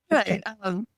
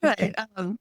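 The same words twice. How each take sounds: The two takes are said the same way.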